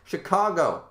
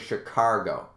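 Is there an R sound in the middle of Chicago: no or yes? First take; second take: no; yes. First: Chicago is said with no R sound. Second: Chicago is said with an added R sound. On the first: The speaker calls it right. "I don't put an R in Chicago" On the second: The speaker calls it wrong. "there's a lot of people that say Chicago ... Like, there's no R"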